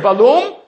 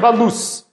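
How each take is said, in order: First: The word ends with an m sound. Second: The word ends with an s sound. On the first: "two possible pronunciations" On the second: "favors it being a Samach, which is Otzer Balus"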